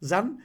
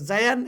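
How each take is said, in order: First: No 'y' glide is pronounced after the first consonant. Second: A 'y' glide is pronounced after the first consonant. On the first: The speaker calls it right. "উচ্চারণে আসবে না" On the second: The speaker calls it wrong. "এমনি করা যাবে না"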